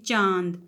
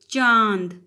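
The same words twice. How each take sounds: First: चांद lower, with a nasalised आ; nasal vowel demo. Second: चांद with the आ nasalised, through nose and mouth; nasal vowel demo. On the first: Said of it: "आप लोग साथ में बोल सकते हैं". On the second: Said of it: "आप बोल के देखिए". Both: Shown as a demonstration.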